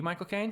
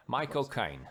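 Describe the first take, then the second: First: Said in the usual way. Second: Put-on Cockney accent, Caine said like "kine"; Michael Caine's Cockney accent. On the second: Host puts everybody on the spot, Cockney accent impression. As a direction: give the name a quick Cockney twist. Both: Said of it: "everybody's got a Michael Caine".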